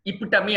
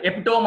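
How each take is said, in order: First: ఇపిటమీ said "i-PIT-a-mee"; four syllables in ఇపిటమీ, ending in mee; correct pronunciation. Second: ఎపిటోమ్ said "epi-TOME"; common mispronunciation. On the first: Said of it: "ఇపిటమీ అనాలి". (ఇపిటమీని చివర "మీ"తో) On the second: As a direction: end ఎపిటోమ్ on a long "tome". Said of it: "అనేస్తారు చాలా మంది". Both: Shown as a demonstration.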